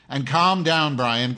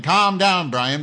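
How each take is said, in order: First: Calm down said loud and high, sarcastic; scolding a heckling viewer, loud and sarcastic; raised voice. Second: Calm down shouted much higher and louder; shouting the line back at the viewer Brian; near shout. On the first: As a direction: snap it back at the viewer. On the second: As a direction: yell it at him this time. Repeats it, louder. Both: Real, not acted.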